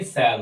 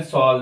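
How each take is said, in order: First: सैल with an open front vowel, "sal"; correct pronunciation. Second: सॉल with an "aw" vowel, rhyming with "call"; wrong pronunciation. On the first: Teacher correcting the exception for learners, सैल said as "sal". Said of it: "सैल हो जाता है". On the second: Teacher warning learners off the mistake, सॉल said as "sawl". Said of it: "सॉल नहीं". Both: Shown as a demonstration.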